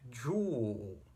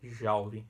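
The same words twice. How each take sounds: First: The vowel sounds like 'oo'. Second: The vowel sounds like 'ow'. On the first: The speaker calls it right. "é joule" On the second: The speaker calls it wrong. "não é joule ... vai ter esse som de AU, mas não é"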